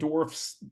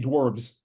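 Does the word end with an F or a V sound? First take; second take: F; V. First: The word ends with a voiceless F sound. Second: The word ends with a voiced V sound. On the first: The speaker calls it wrong. "saying dwarfs doesn't uh it doesn't sound as good" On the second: The speaker calls it right. "I like to say dwarves with a V"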